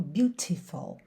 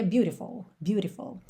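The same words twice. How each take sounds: First: British "beautiful" with a crisp T. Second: American "beautiful" with a flapped T, like "bure-tiful". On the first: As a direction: keep the T clean in "beautiful". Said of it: "E no inglês britânico". ("beautiful" britânico, T limpo) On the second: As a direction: flap the T in "beautiful". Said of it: "No inglês americano". ("beautiful" americano, T batido) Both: Shown as a demonstration.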